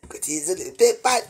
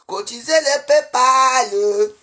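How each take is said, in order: First: Said in the usual way. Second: "Cotisez le PayPal" stretched slow and loud; drawn-out slogan. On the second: Real, not acted. Urging her viewers to pay, "Cotisez le PayPal" slow and loud. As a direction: chant "Cotisez le PayPal" slowly, leaning on PayPal. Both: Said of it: "C'est de ça qu'il s'agit".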